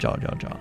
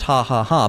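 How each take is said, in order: First: Each syllable starts with an English J sound. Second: Each syllable starts with a breathy H sound. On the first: The speaker calls it wrong. "I always read it and I'm like" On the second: The speaker calls it right. "you don't say the J. I think it's still pronounced ha ha ha"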